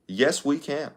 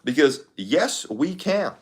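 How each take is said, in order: First: Softer second try at the slogan; Obama impression. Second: Slow higher Obama slogan, trailing softer; Obama impression. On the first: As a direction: quieter Obama-style retake. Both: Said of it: "the Obama impression is way easier".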